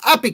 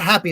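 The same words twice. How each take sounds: First: The word begins without any h sound. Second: The word begins with a clear h sound. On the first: The speaker calls it right. "gotta drop that H" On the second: The speaker calls it wrong. "It's not happy"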